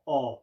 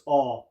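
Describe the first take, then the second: First: The vowel is broad and open. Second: The same.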